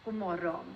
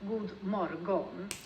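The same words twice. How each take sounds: First: The D and G are nearly silent. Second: The D and G are clearly pronounced. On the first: The speaker calls it right. "But we actually say god morgon instead" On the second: The speaker calls it wrong. "You might want to read it as god morgon"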